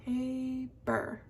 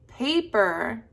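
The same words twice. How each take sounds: First: Paper softly split as long PA, then PER; broken into syllables. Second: Said in the usual way. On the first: Shown as a demonstration. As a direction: sound out paper quietly in two beats. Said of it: "break up the word". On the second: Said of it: "The next one is".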